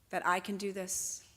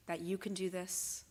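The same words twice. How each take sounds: First: "I" given the weight, against "you"; stress on I. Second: "you" given the weight, softer phrase; stress on YOU. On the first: Organiser pledging her own effort to the crowd, stress on I. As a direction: lean on the word "I". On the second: Organiser turning the task to the crowd, stress on you. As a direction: lean on the word "you". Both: Real, not acted.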